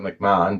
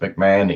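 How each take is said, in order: First: The name is said the family's own way. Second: The name is said the usual American way. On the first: This is how the family says its name. "we pronounce it McMahon" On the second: This is how people in the US say it. "it's pronounced McMahon in uh, the U S"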